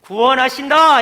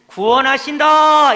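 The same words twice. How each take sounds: First: Loud, ringing announcement with a falling end; proclaiming salvation. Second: Slow, loud, ringing announcement; proclaiming salvation. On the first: Preacher repeating the prophets' promise to the congregation. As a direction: declare it boldly once more. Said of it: "이렇게 선포해요". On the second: Preacher voicing the prophets' promise to the church. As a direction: proclaim it as good news to all. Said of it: "이렇게 선포하는 거예요". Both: Acted.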